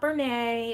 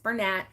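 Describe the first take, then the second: First: The final t is silent. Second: The final t is pronounced. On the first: The speaker calls it wrong. "it's not Bernay, it's not, you know, don't get fancy with it" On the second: The speaker calls it right. "it's Bernat"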